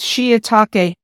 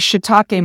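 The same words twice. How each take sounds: First: The word is said in a careful form. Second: The word is said in a common casual form. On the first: The speaker calls it right. "It's shiitake" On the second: The speaker calls it wrong. "We often say shiitake mushrooms"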